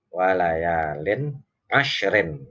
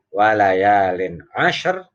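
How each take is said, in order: First: The last word ends with a vowel and -n. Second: The last word stops on a heavy r. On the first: The reading continues into the next verse. "kalau dibaca pasal" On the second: The reading stops at the end of the verse. "kalau dibaca waqaf"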